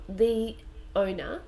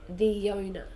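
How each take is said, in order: First: The two words have no Y sound between them. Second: A small Y sound links the two words. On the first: The speaker calls it wrong. "we don't say the owner" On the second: The speaker calls it right. "we say the owner"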